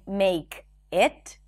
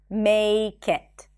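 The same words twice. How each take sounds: First: The two words are said separately. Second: The K sound is linked onto the next word. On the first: "Instead of saying make it" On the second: "the k becomes the beginning of the next word"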